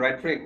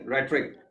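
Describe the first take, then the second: First: रेटरिक said reh-tuh-rik, no h sound; rhetoric, silent h. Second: रेटरिक again as reh-tuh-rik, h left silent; rhetoric, silent h. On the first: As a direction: say रेटरिक with a plain r and no h. (रेटरिक बिना एच की आवाज़ के, रे-ट-रिक) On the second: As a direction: repeat रेटरिक clearly with no h. (रेटरिक फिर से, एच silent रखकर) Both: Shown as a demonstration. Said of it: "एच नहीं, रेटरिक".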